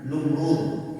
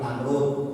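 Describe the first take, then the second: First: The first vowel is u. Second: The first vowel is a. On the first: This is the original form of the name. "nanti ada Numrud bidomin nun" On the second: This is the usual local form of the name. "Kita bilang Namrud"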